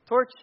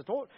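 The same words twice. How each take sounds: First: Said in the usual way. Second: "torch" in a British accent. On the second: Shown as a demonstration. Preacher showing how Britons say torch, British accent. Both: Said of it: "If you're British, it's a torch".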